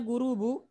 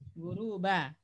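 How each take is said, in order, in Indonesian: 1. Kata itu berakhir dengan vokal 'u'. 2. Kata itu berakhir dengan vokal 'a'. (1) "Boleh nggak dibaca" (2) "Jadi wajib dibaca nasab"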